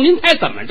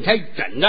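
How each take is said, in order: First: The words are articulated crisply and clearly. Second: The words are slurred and mumbled together. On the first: The speaker calls it right. "这多利索" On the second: The speaker calls it wrong. "嘴里有毛病能说吗？ 你这舌头"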